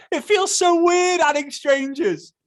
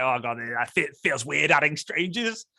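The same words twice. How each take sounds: First: Very high, loud, slow mocking wail; exaggerated mock whine. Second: Understated imitation of a hesitant worrier; mild mock unease. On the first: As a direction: ham up the worrier's complaint in falsetto. Exaggerates the worrier's complaint. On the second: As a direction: voice a doubt, only lightly uneasy. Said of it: "because you might think like".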